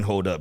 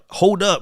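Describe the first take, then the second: First: It sounds stern and warning. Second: It sounds proud and pleased. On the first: The listener should stop. "You better stop that" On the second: The speaker is showing off. "I got a good haircut. I look good"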